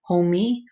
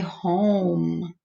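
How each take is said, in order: First: An extra ee sound follows the M. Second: The word stops at the M sound. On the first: The speaker calls it wrong. "I don't say homie" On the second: The speaker calls it right. "I say home. So it sounds like I'm stopping at the M"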